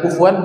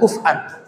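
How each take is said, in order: First: The word has a w sound between syllables. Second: The word has a glottal stop between syllables. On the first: This is the common reading. "Bisa dibaca kufuwan" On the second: This is the reading of another recitation tradition. "bisa dibaca kuf'an dalam qiraah yang lain"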